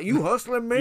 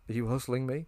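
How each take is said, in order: First: It is spoken in an exaggerated Texas accent. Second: It is spoken in a plain, unaccented voice. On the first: "doing like a fucking Texas accent" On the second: "he's just asking him, because he's worried"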